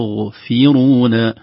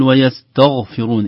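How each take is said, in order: First: "ويستغفرون" chanted with a light, thin ta; correct pronunciation. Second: "ويستغفرون" chanted with a heavy, thick ta; wrong pronunciation. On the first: Teacher models the corrected word, chanted slowly. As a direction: keep the ta in "ويستغفرون" thin before the ghain. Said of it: "نرقق التاء". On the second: Teacher shows the mistake to avoid, chanted slowly. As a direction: darken the ta in "ويستغفرون" toward the ghain. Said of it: "لا نقول". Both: Shown as a demonstration.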